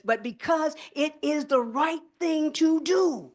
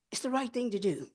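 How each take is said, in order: First: Slow, high and drawn out, stressing RIGHT and DO; emphatic stress. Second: Softer, settling down on "right"; quiet repeat. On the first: Senator urging the press conference, slow rising emphasis. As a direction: lean hard on "the right thing to do", rising high. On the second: Senator echoing her own plea to the audience, softer. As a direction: drop the voice and let "It's the right thing to do" land gently. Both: Real, not acted.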